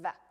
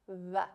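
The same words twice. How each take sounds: First: The upper teeth touch the lower lip. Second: Both lips almost touch each other. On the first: "in English, when we say the V sound, we use our teeth on our bottom lip" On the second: "it's pronounced with both lips almost touching"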